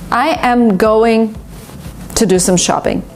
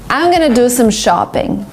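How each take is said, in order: First: Every word is said in full. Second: It is reduced in American style, saying gonna.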